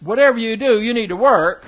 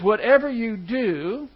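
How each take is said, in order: First: Louder, pressing "Whatever you do, you need to work" like an order; command reading. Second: "Whatever you do" drawn out slowly, rising on "Whatever", with no weight on "do"; slow potential reading. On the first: Teacher mock-reads the verse to his class as a firm command. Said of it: "If it was just trying to do, say". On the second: Teacher shows the class the verse read as a possibility, slow and rising. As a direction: let "Whatever you do" hang open, lifting on "Whatever" and leaving "do" light. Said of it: "the emphasis isn't on doing something".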